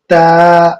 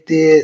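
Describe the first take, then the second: First: The letter name ends in an 'ah' vowel. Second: The letter name ends in an 'eh' vowel. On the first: The speaker calls it right. "मअरूफ़ पढ़ना है" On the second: The speaker calls it wrong. "वो अल्फ़ाज़ ना इस्तेमाल करें जो हमने बचपन में सिखाया गया था"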